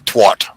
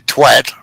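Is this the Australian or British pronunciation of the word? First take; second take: Australian; British. First: It is said the Australian way. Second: It is said the British way. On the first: "we say" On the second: "you say"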